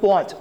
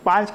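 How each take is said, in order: First: The word is said with an 'o' vowel. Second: The word is said with an 'aa' vowel. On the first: The speaker is from North Gujarat. "કોઈ બોલે પોંચ, તો તરત જ ખબર પડી કે ભાઈ આ તો ઉત્તર ગુજરાતનો છે" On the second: This is the standard way to say it. "પાંચ કેવું હોય"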